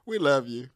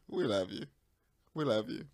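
First: Said in the usual way. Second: Much softer and lower, cooing it; soft we love you. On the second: Real, not acted. Co-host soothing the angry host, soft and tender. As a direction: coo it gently to smooth things over.

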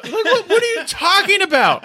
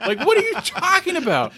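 First: Mock incredulous shout. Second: Mock disbelief. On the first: Podcast host mocks Brandon's excuse in a high laughing shout. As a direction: shout it through a laugh, mocking him. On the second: Repeating the mock question.

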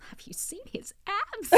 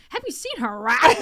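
First: Excited whisper, voiceless and very soft; slow, secretive whisper about someone attractive; hushed confiding. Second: Lightly voiced guy ogling, a bit higher; imitating leering guy. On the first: Retold or imitated. Co-host whispering to her friend about a guest's abs, hushed. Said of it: "but Roxy was like". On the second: Imagined guy in the car remarking on a woman, lightly imitated. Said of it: "imagine a guy was in the car".

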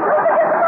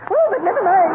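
First: Much higher, louder fluttery dismissal; high-pitched society-lady brush-off; high flustered repeat. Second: Said in the usual way. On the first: Acted. Uppington says the line twice.

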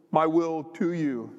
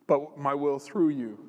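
First: "to you" drawn out slowly; slow down and lean on "to"; stress on TO. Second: "through you" drawn out slowly; slow down and lean on "through"; stress on THROUGH. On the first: God explains his will to Justin, stressing "to". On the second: God corrects Justin about his will, stressing "through". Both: Retold or imitated.

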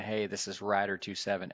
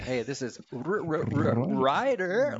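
First: Said in the usual way. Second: "Ryder" stuttered with trilled R's, rising high; rolled R's. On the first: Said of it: "instead of just saying". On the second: Retold or imitated. Pilots mocking controller on the radio, "Ryder" with rolled R's. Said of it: "We started rolling our R's".

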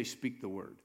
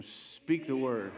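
First: Said in the usual way. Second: Drawn-out, rallying call; with some enthusiasm. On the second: Shown as a demonstration. Preacher getting the congregation to repeat the words, enthusiastic. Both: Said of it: "say it with some enthusiasm".

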